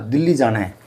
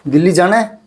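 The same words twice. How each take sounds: First: It is said as a flat statement. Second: It is said as a plain question.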